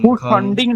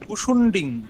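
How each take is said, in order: First: The second vowel is pronounced as 'a'. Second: The second vowel is pronounced as 'u'. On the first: The speaker calls it wrong. "ভূষণ্ডিং নয়" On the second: The speaker calls it right.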